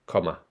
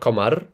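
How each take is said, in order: First: The word ends with a plain vowel. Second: The word ends with an r sound. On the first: The speaker calls it right. "it is indeed just at the end of comma" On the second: The speaker calls it wrong. "Not commar"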